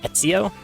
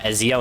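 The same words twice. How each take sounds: First: The name is said with a t sound. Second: The name is said without a t sound. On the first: The speaker calls it right. "how are you supposed to know there's a T?" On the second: The speaker calls it wrong. "I pronounced it uh, Ezio instead of"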